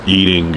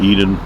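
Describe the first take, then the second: First: The final g sound is clearly pronounced. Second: The final g sound is dropped. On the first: "you got to pronounce your G's at the end" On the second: "I don't know if I Eden"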